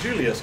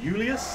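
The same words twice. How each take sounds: First: The name begins with a J sound. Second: The name begins with a Y sound. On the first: The speaker calls it wrong. "It's not even Julius" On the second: The speaker calls it right. "they have no um, J either. It's Julius"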